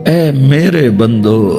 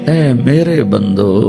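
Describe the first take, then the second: The two takes are said the same way.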